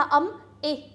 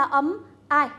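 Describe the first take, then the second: First: "I" said as the vowel in "fish"; short i sound. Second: "I" said as "eye", like the vowel in "like"; ai diphthong. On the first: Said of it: "Fish được phát âm là âm I". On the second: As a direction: say "I" gliding from ah to ee. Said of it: "Like được phát âm là âm I". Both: Shown as a demonstration.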